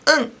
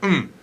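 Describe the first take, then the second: First: It is said clearly with an open vowel. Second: It is mumbled with the mouth closed. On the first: It sounds somewhat feminine. "a little bit girly sounding" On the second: It sounds more typical of men. "You can mumble it"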